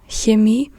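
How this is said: The word begins with a soft hissing ch. This is the standard German pronunciation. "instead of Chemie"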